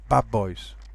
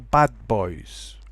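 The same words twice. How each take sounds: First: The phrase is said quickly with the d assimilated. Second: The phrase is said carefully with a clear d.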